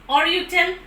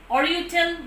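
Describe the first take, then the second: No difference in how they are said.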